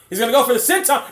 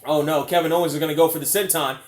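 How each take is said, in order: First: Higher, louder, fast call; rising excitement. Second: Said in the usual way. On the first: Real, not acted. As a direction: build the hype. Same call repeated, rising.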